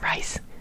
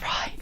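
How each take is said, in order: First: The name ends with an s sound. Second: The name ends on a vowel sound. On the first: The speaker calls it wrong. "I call him Rice" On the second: The speaker calls it right. "It's Rye"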